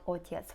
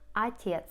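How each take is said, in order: First: The first vowel is a clear, full 'o'. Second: The first vowel is reduced to an 'ah' sound. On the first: The speaker calls it wrong. "Remember about unstressed O, it's not отец" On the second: The speaker calls it right. "right? Отец"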